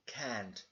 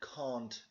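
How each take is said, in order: First: It is said in an American accent. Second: It is said in a British accent. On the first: "in the American English" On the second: "In British English"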